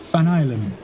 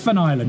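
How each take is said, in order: First: The surname begins with an F sound. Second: The surname begins with a V sound.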